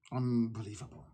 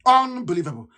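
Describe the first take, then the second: First: Low, soft, under the breath; muttered disbelief. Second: Said in the usual way. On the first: Real, not acted. Activist to listeners, dropping to a disgusted mutter. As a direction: mutter it to yourself, shaking your head.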